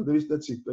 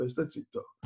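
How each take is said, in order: First: Said in the usual way. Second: Hushed self-warning. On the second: Retold or imitated. Preacher quoting his own old fear of speaking, hushed. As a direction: lower and much softer, almost under the breath. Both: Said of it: "perché io fino a più poco fa dicevo".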